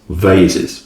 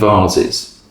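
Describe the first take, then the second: First: The word uses an American pronunciation. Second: The word uses a non-American pronunciation.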